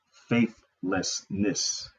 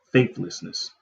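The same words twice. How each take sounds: First: Faithlessness drawn out very slowly with a rising tune; emphasis on faithlessness. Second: Faithlessness said firmly with a falling tune; emphasis on faithlessness. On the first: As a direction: stretch out faithlessness, letting it rise. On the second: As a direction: land Faithlessness with a firm fall. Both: Shown as a demonstration. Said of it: "I gotta always put emphasis on that".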